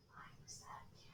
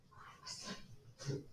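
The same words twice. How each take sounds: First: Whispered confession to the class. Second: Soft whispered repeat; whisper again. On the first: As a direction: whisper it like a secret. Teacher confesses being hyper kid. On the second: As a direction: breathe it out as a secret. Repeats the confession. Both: Real, not acted.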